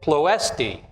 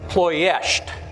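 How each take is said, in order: First: The name is said with an anglicized pronunciation. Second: The name is said with a Romanian pronunciation. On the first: The speaker calls it wrong. "we've Americanized or anglicized this word. Most of us grew up pronouncing it" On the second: The speaker calls it right. "I'm going to use the Romanian pronunciation"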